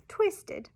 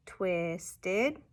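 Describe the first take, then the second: First: "twisted" joined quickly, high start and falling end; whole word "twisted" in a high falling tune; blended new word. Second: "Twisted" slowly split into twist and ed; syllable-by-syllable "Twisted"; parts separated. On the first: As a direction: slide "twisted" together, pitched way up then dropping. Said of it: "making a new word". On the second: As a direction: say "Twisted" in two parts, left hanging. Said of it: "substituting parts of a word". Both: Shown as a demonstration.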